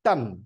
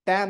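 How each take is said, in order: First: The vowel sounds like the one in cut. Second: The vowel sounds like the one in cat. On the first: The speaker calls it right. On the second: The speaker calls it wrong. "ಟ್ಯಾನ್ ಅಲ್ಲ"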